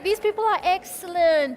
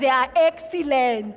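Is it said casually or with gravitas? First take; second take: casually; gravitas. First: It is said casually, without weight. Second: It is said with weighty gravitas.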